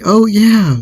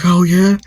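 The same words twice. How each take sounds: First: Very high, loud mock retort, falling at the end; re-enacted emphatic confirmation; defiant echo. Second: Imitating an aggressor, high, loud "oh, yeah?" rising at the end; retold questioning taunt; challenging question. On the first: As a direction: throw the taunt back, higher and drawn downward. Acted answer to the challenge. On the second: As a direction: act out a rising, loud dare.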